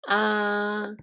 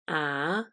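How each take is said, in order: First: The pitch stays flat and smooth. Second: The pitch rises. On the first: "the first tone, which is flat and smooth sound" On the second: "the second tone, which is a rising sound"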